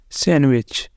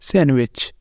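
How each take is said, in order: First: The d sound is left out entirely. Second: The same.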